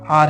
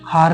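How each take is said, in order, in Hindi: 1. इस शब्द की शुरुआत स्वर से होती है, इसमें 'h' नहीं है। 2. इस शब्द की शुरुआत में 'h' की आवाज़ सुनाई देती है। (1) "एच इसमें साइलेंट रहता है" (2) "ये हार नहीं है"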